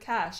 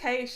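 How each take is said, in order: First: The word sounds like cash. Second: The word sounds almost like quiche. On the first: The speaker calls it right. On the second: The speaker calls it wrong.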